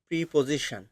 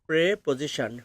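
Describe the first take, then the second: First: The first syllable is said like 'pree'. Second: The first syllable is said like 'preh'. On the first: The speaker calls it wrong. "আমরা এই ইংলিশটা ভুল বলে থাকি, কারণ আমরা বলি প্রিপোজিশন" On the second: The speaker calls it right. "সঠিকভাবে যদি আপনি বলেন, এর উচ্চারণটা হবে প্রেপোজিশন"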